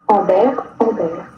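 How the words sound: The name is said with French pronunciation.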